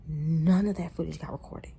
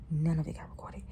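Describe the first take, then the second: First: Said in the usual way. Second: Real whisper, breath only. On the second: Real, not acted. Vlogger admitting to viewers the footage was lost, whispered. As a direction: drop to a whisper as if confessing.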